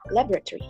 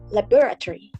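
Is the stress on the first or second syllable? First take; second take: first; second. First: The stress is on the first syllable. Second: The stress is on the second syllable. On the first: "in the U S, they stress in the first syllable" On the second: "in the U K, they tend to uh, use the stress in the second syllable"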